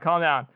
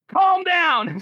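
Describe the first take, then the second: First: It is said quietly and evenly. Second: It is screamed loudly. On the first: "she doesn't say like calm down" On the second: "She like screams it"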